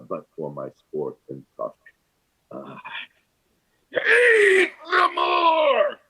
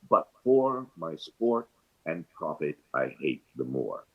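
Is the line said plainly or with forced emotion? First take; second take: forced emotion; plainly. First: It is said with forced emotion and hesitation. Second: It is said plainly, with no turbulence.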